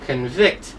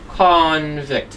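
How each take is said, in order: First: The stress is on the second syllable. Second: The stress is on the first syllable. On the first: The action of finding someone guilty. "the stress is an I" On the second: A person who has committed a crime. "So the stress is on O"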